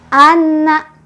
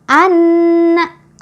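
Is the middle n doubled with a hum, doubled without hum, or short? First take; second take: doubled, no hum; doubled, hum. First: The n is doubled but has no nasal hum. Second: The n is doubled with a held nasal hum. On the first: The speaker calls it wrong. "Tasydidnya sudah ada, tapi dengungnya mana?" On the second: The speaker calls it right. "Itu bacaan yang betul"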